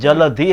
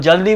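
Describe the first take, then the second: First: The word is said 'jaladhi' with a breathy dh. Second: The word is said 'jaldi' with a plain d. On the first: The speaker calls it right. "जलधि है" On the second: The speaker calls it wrong. "वो जल्दी बोलते हैं"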